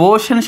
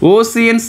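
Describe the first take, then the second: First: The middle consonant is an sh sound. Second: The middle consonant is an s sound. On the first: The speaker calls it right. "ఓషన్ అట" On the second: The speaker calls it wrong. "ఓసియన్ కాదు అది"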